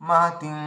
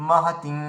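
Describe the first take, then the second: No difference in how they are said.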